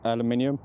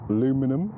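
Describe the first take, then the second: First: It is said with five syllables, British style. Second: It is said with four syllables, American style.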